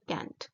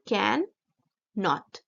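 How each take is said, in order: First: It is said as one short contracted word. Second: It is said as two separate full words. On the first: "इसका जो हमने contraction बनाया है वो है कैंट" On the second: "कैन नॉट दोनों अलग अलग वर्ड हैं"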